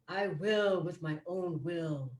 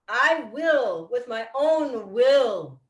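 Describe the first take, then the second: First: It is said more softly. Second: It is said loudly. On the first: It is taken into the subconscious mind. "let's say it a little more softly now" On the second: It shakes up and wakes the conscious mind. "we say the affirmation loud"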